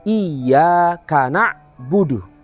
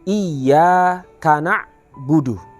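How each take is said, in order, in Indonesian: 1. Huruf y yang ganda ditahan dan ditekan dengan kuat. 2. Huruf y yang ganda ditahan dan ditekan dengan kuat.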